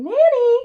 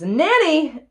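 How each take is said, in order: First: Very high, loud shriek; shrieked copycat call for the nanny; screaming. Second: Loud, raised call for help; acted tutor's scream. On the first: Acted. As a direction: scream it at the top of the voice. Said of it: "And I scream". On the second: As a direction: holler for the nanny, higher and louder. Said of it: "And then he screams".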